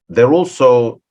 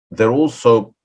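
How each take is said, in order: Both takes have the same delivery.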